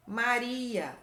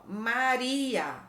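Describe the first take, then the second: First: Said in the usual way. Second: Very slow, stretched MA-RI-A; sounded out slowly. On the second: Shown as a demonstration. Teacher reading a name for pupils to copy, very slow. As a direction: draw out each syllable of Maria.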